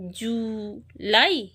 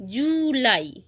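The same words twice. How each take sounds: First: "July" drawn out slowly as ju, lai; syllable by syllable. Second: Said in the usual way. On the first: Shown as a demonstration. Teacher joining the syllables of "July" for pupils, slowly syllable by syllable. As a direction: hold "জু", pause, then "লাই". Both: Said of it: "এটাকে আমরা syllable ভাগ করে পড়ব".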